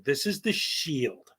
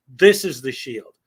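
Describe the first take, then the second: First: Said in the usual way. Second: THIS punched and louder; a louder repeat landing hard on This; stress on THIS. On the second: Shown as a demonstration. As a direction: hit the word This hard, then let it fall.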